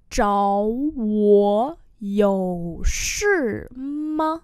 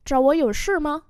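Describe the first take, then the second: First: Very slow, syllable by syllable; slow-motion pronunciation model; slow demonstration. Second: Said in the usual way. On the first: Shown as a demonstration. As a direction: stretch each tone for learners. Teacher repeats slowly for learners.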